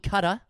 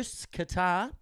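First: Qatar is said with an American pronunciation. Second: Qatar is said with an Australian pronunciation.

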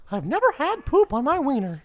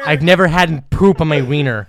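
First: It is said in a Mickey Mouse voice. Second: It is said in his normal voice.

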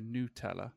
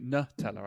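First: The first syllable sounds like 'noo'. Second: The first syllable sounds like 'nut'. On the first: The speaker calls it right. "that is the correct pronunciation for Nutella" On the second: The speaker calls it wrong. "I don't say Nutella"

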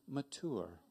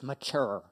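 First: Mature is said with an odd, teasing pronunciation. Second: Mature is said with the usual, standard pronunciation. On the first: The speaker calls it wrong. "the way that I do when I want to frustrate my wife" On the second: The speaker calls it right. "And she's like, ew. It's mature"

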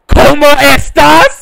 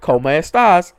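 First: It is asked in a loud, aggressive tone. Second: It is asked in a calm, normal tone.

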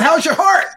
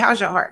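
First: It is said in a light, casual tone. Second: It is said in a serious, earnest tone. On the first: It is a light passing greeting. The speaker calls it wrong. "not like that" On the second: It is a sincere question about inner feelings. The speaker calls it right. "But like in a serious"

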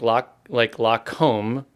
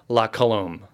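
First: The name is said as la comb, two syllables. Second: The name is said as la colombe, three syllables. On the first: The speaker calls it wrong. "I always pronounce it wrong. So you say comb, like la comb" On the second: The speaker calls it right. "he adds an O in between the M and the L"

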